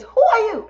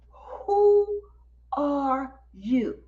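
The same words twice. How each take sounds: First: High, loud burst in one breath; retold amazed demand, run together; astonished. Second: Retold amazement, each word set apart; slow, stunned question with big pauses; astonished. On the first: Astonished host, retold again.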